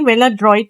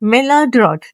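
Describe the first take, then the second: First: The last syllable sounds like 'droit', with 'oy'. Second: The last syllable sounds like 'drot', without 'oy'. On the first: The speaker calls it wrong. "मेलाड्रॉइट नहीं होता" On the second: The speaker calls it right. "ये मेलाड्रॉट होता है"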